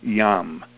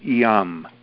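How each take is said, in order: First: An E-like vowel comes before the Y sound. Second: An E-like vowel comes before the Y sound.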